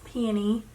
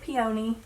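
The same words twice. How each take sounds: First: The word is said with a non-Southern pronunciation. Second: The word is said with a Southern pronunciation. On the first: This is how someone else says it. "she said it is Peony" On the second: This is how the speaker has always said it. "That is how we say it in the South"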